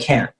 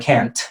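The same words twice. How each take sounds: First: The final t is stopped in the throat. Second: The final t is clearly released. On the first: "They'll say" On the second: "They won't say"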